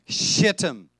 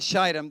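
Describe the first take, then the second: First: The name is said with a Hebrew-style pronunciation. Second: The name is said with an English-style pronunciation. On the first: The speaker calls it right. "The proper pronunciation in the Hebrew" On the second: The speaker calls it wrong. "It's not Shittim"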